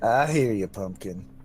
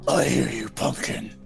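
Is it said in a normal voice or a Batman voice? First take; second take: normal; Batman voice. First: It is said in his normal voice. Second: It is said in a deep Batman voice.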